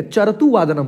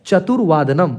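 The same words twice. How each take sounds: First: चरतु वादनम with the r sound said before the t, as चर-तु; wrong r placement. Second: चतुर्वादनम with the r closing चतुर्, right before वादनम; correct pronunciation. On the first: Teacher demonstrating the pupils' mistake, चरतु वादनम with r first. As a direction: read चरतु वादनम with the misplaced r up front. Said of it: "तो रॉ पहले उच्चारण हो जाता है". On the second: Teacher modelling the right form for students, चतुर्वादनम with r after tu. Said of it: "उससे पहले रॉ बोला जाता है". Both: Shown as a demonstration.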